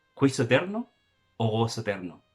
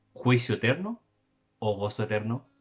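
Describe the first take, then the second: Both takes have the same delivery.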